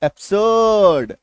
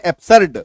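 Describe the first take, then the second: First: एब्सर्ड slow, "ab-suuhd", no R; silent R. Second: एब्सर्ड loud with R sounded, "ab-sard"; wrong full R. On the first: Teacher correcting it, एब्सर्ड drawn out with silent R. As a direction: stretch the last vowel of एब्सर्ड, R dropped. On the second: Teacher showing the wrong way, एब्सर्ड with full R. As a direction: punch a hard R into एब्सर्ड. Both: Shown as a demonstration. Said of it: "गलत".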